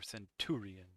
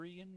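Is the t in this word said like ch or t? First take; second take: t; ch. First: The middle sound is said like t. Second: The middle sound is said like ch. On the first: "with a t" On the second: "with like a ch"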